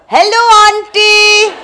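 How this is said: It is said loudly in a broad Indian accent.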